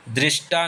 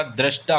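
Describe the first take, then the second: First: दृष्टा said drishtaa, with i; wrong form drishta. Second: दृष्टा said drashtaa, with a; correct form drashta. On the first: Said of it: "दृष्टा नहीं होता". (गलत उच्चारण: दृष्टा में 'रि') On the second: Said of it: "दृष्टा होता है". (सही उच्चारण: 'द्रष्टा') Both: Shown as a demonstration.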